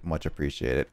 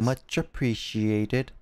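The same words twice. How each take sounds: First: It is said in the speaker's natural voice. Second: It is said in an imitated, put-on voice.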